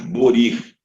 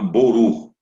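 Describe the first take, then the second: First: It is said in another regional Hebrew variant. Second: It is said in an Ashkenazi Hebrew accent. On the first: "outros com mais variações"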